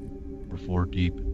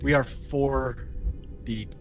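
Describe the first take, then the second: First: It is said in an extra deep voice. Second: It is said in a normal voice.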